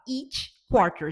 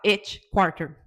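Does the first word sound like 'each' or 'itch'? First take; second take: each; itch. First: The first word has the long 'ee' of each. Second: The first word has the short vowel of itch. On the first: It means every quarter. The speaker calls it right. "você vai falar each quarter" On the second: It sounds like an itch quarter. The speaker calls it wrong. "Já pensa se você falar each quarter?"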